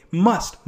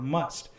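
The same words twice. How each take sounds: First: "Must." said louder with a rising tune; "Must." hit firmly, lifted at the end; stress on Must. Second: Said in the usual way. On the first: Shown as a demonstration. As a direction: punch "Must." and let it rise. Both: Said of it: "Must is an implying word".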